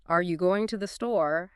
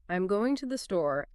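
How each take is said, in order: First: "Are you going to the store?" with pitch rising on "store"; rising intonation. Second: "I'm going to the store" as a statement, pitch falling on "store"; falling intonation. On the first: Teacher showing learners a question, rising intonation on "store". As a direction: lift "store" at the end into a question. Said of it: "has a rising intonation at the end". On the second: Teacher showing learners a statement, falling intonation on "store". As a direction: let "store" drop at the end of "I'm going to the store". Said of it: "ends on a falling intonation".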